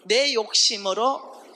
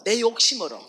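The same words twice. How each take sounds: First: "내 욕심으로" slowed right down and loud; slow emphatic stress. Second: "내 욕심으로" loud at normal pace; emphatic repeat. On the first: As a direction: spell out "내 욕심으로" word by word. ("내 욕심으로"를 아주 천천히 크게) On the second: ("내 욕심으로"를 힘있게 반복) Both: Shown as a demonstration.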